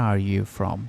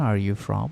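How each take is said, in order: The two takes are said the same way.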